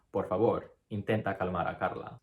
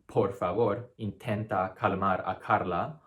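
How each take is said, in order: First: Por favor and Carla with unaspirated stops; soft Spanish stops. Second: Por favor with a puffed p, Carla with a puffed k; aspirated English stops. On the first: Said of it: "You'd wanna pronounce the sounds". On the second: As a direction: blow air on every stop. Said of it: "you wouldn't wanna pronounce it". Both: Shown as a demonstration.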